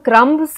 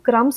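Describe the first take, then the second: First: The letter b is pronounced in the word. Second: The letter b is not pronounced in the word. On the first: The speaker calls it wrong. "यानी हम क्रम्स नहीं बोलते" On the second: The speaker calls it right. "हम क्रम्स बोलते हैं"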